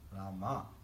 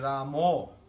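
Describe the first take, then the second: First: The name ends with an 'a' vowel. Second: The name ends with an 'o' vowel. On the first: The speaker calls it right. "A, not O" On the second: The speaker calls it wrong. "It's not Hari Ramo"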